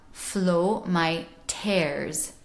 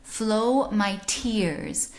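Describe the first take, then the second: First: Slow FLOW MY TEARS, tears as open 'tairs'; sixteenth-century vowel. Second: FLOW MY TEARS with a closed ee in tears; modern English vowel. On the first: Teacher redoing the first phrase in old pronunciation, open-eh TEARS. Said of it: "It was still more E". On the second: Teacher quoting the song's first phrase, modern closed-ee TEARS. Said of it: "In modern English". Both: Shown as a demonstration.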